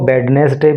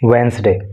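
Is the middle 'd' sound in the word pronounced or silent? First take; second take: pronounced; silent. First: The middle d and e are fully pronounced. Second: The middle d and e are dropped. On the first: The speaker calls it wrong. "इसको वेडनेसडे भी कुछ लोग बोल देते हैं" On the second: The speaker calls it right. "आपको बोलना है वेंसडे"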